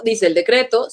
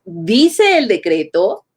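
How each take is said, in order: First: Said in the usual way. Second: Dice el decreto slow, with a rise on decreto; slow rising tune. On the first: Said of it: "cómo se escucha la sonoridad". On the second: Shown as a demonstration. Teacher showing students the melody of dice el decreto, slow and rising. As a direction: stretch dice el decreto and lift decreto at the end. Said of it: "así es como funciona esta cosa de la sonoridad".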